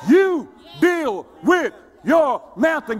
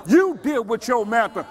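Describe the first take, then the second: First: YOU, DEAL, WITH, YOUR, MOUNTAIN each punched separately and slowly; slow down and hammer every word of "You deal with your mountain"; word-by-word emphasis. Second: Said in the usual way. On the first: Real, not acted.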